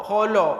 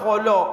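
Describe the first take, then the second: No difference in how they are said.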